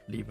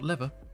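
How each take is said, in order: First: The first vowel is long, like 'leever'. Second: The first vowel is short, like 'levver'. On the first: The speaker calls it right. "Lever, not lever, because there's only one V" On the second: The speaker calls it wrong. "not lever, because there's only one V"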